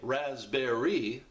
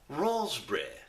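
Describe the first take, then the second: First: It is said in an American accent. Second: It is said in a British accent.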